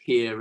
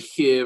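First: The word is said in a standard accent. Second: The word is said in a Welsh accent.

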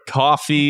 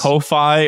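First: The name sounds exactly like the drink coffee. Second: The first vowel sounds like the o in go. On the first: The speaker calls it right. "it's probably pronounced like coffee" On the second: The speaker calls it wrong. "Because it's spelled Ko-fi"

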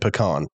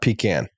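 First: The word sounds like 'puh-kahn'. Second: The word sounds like 'pee-can'. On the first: The speaker calls it right. "So it's P-U-H-C-A-H-N" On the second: The speaker calls it wrong. "Not pecan. You don't pee in the can"

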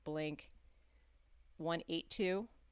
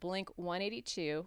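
First: The name is said the British way. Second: The name is said the American way. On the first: The speaker calls it right. "the British pronounce it" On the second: The speaker calls it wrong. "which is how the Americans pronounce it"

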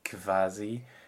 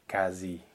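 First: The word begins with a kv sound. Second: The word begins with a plain k sound. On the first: The speaker calls it wrong. "not a KV like it would be in German" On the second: The speaker calls it right. "like just a K"

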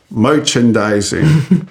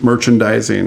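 First: It is said in an exaggerated character voice. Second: It is said in the speaker's normal voice.

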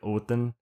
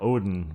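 First: The middle consonant is a soft th-like sound. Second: The middle consonant is a plain d sound. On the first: The speaker calls it right. "it's like a DT. It's like Odin" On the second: The speaker calls it wrong. "which I know I'm pronouncing incorrectly"

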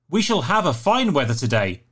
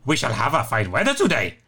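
First: It is read in his normal voice. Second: It is read in a put-on Yoda voice.

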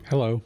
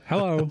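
First: The greeting sounds flat and down. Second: The greeting sounds perked up and cheerful.

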